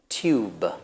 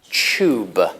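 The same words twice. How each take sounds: First: It begins with a separate t and y sound. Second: It begins with a merged ch sound. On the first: This is the older way of saying it. "the older pronunciation is tube" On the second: This is the usual way of saying it today. "The usual pronunciation is ch"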